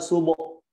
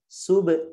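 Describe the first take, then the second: First: The final consonant's echo sounds like an 'o' vowel. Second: The final consonant's echo sounds like an 'e' vowel. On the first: The speaker calls it wrong. "atau enggak subo, nggak boleh" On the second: The speaker calls it right. "yang benar sub"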